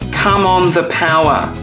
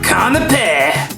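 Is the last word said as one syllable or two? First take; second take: two; one. First: The last word has two clear syllables. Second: The last word collapses into one syllable. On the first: "it's come on the power" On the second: "it sounds like"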